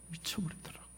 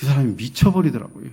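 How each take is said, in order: First: Very soft, almost voiceless; hushed repeat. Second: Said in the usual way. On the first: Real, not acted. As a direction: let the words drop away to nearly nothing. Hushed repeat of father's breakdown.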